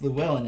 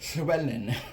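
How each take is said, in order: First: The name starts with a plain English l sound. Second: The name starts with a hissing Welsh ll sound. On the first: The speaker calls it wrong. "it's not actually pronounced Llewellyn in Welsh" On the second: The speaker calls it right. "it's Llywelyn or something like that"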